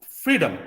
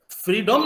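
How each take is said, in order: First: फ्रीडम with schwa, free-dəm; फ्रीडम, last vowel reduced; correct freedom. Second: फ्रीडम with a full last vowel, free-dum; फ्रीडम, second vowel clear; wrong freedom. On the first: Teacher gives the right form: फ्रीडम with schwa. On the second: Teacher shows the wrong way: फ्रीडम with a full vowel. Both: Shown as a demonstration. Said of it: "नहीं बोलते हैं".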